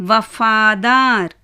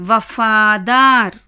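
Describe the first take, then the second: Both takes have the same delivery.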